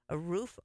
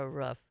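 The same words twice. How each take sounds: First: "roof" with a long oo, as in food; long-vowel roof. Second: "roof" with a short vowel, close to "ruff". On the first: Host weighing two pronunciations, long-vowel roof. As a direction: say "roof" with the oo drawn as in "boot". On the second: Host weighing two pronunciations, short-vowel roof. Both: Shown as a demonstration. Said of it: "It's like roof or roof".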